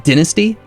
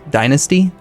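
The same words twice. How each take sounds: First: It is said the non-Americanized way. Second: It is said the Americanized way. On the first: "I think proper is dynasty" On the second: "the Americanized or like, you know, anglicized version is dynasty"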